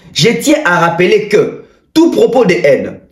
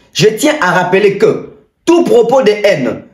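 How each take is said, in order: The two takes are said the same way.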